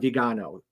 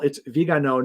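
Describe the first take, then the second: First: The stress falls on the 'ga' syllable. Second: The stress does not fall on 'ga'. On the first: The speaker calls it wrong. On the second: The speaker calls it right. "so first of all"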